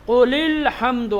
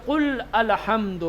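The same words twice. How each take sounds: First: قل الحمد linked slowly as "qulil-hamd"; silent hamza. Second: قل الحمد as two words, "qul al-hamd"; hamza wrongly pronounced. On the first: Teacher giving the example of unread hamza, قل الحمد slowly linked as "qulil-hamd". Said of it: "پڑھا نہیں جاتا۔ جیسے". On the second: Teacher warning students off this reading, قل الحمد with audible hamza, "qul al-hamd". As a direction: sound the "a" starting الحمد after قل. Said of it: "آپ نہیں پڑھیں گے". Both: Shown as a demonstration.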